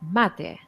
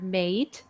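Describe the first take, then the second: First: The stress is on the first syllable. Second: The stress is on the last syllable. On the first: The speaker calls it right. "pronounced as latte" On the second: The speaker calls it wrong. "don't confuse it for mate"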